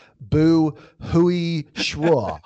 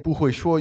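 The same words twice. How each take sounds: First: Very slow, higher, clumsy foreigner's Mandarin; bad beginner's Chinese. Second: Said in the usual way. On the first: Shown as a demonstration. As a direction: drag out each syllable in exaggerated bad Mandarin. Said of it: "you should say, like". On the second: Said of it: "instead of saying".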